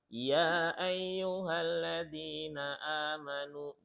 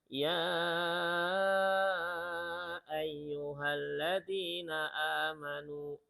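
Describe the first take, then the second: First: The long vowel is held for two beats. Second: The long vowel is held for six beats. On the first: "Berapa harokat? Dua hanya" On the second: "kita bacanya enam"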